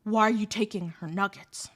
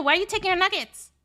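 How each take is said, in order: First: Put-on lower, calm, menacing boyfriend; lightly voiced hulking boyfriend, lower and calm; quiet toughness. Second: Put-on higher, louder tough-girl demand; retold tough-girl yell, higher and louder. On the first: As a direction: ask it low and quiet, with threat behind it. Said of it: "he's got this quiet toughness". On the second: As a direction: shout it at him in her face. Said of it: "a very tough girl kind of, like, accent".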